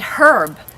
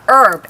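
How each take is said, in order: First: The word begins with an audible H sound. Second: The word begins without any H sound. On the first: This is the English way of saying it. "she said herb" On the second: This is the American way of saying it. "instead of herb"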